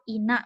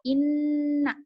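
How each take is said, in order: First: The n sound is short and single. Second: The n sound is doubled and held longer. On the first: The speaker calls it wrong. "Salah ya" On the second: The speaker calls it right. "Yang benar seperti apa? Inna gitu"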